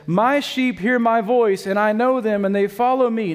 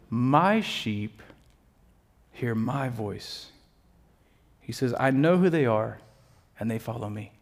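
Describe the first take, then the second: First: A preacher's clear, full-voiced recital; projected scripture quote. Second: Low and soft, with long pauses between phrases; hushed scripture quote. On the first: Preacher quotes Jesus to the congregation, projected. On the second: Retold or imitated. Preacher returns to Jesus' words after joking, hushed. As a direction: let the verse settle quietly, lower and softer.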